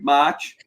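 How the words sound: It is said in a Boston accent.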